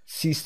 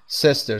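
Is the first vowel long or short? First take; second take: long; short. First: The first vowel is long. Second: The first vowel is short. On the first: The speaker calls it wrong. "نمیگیم" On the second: The speaker calls it right. "صدای ای کوتاه"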